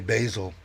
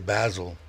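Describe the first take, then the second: First: The word is said in an American accent. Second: The word is said in a British accent. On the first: "we say basil" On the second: "you say basil"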